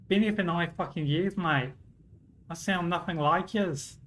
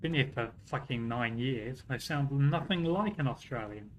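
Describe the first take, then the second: First: Playful Australian accent, pitched up; put-on Australian accent. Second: Said in the usual way. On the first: Shown as a demonstration. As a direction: say it like a mock Aussie mate. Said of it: "switch from English to Australian". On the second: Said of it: "I sound too bloody British".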